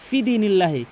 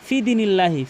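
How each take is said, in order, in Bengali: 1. 'fi' এর স্বরধ্বনিটি ছোট করে পড়া হয়। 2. 'fi' এর স্বরধ্বনিটি ছোট করে পড়া হয়।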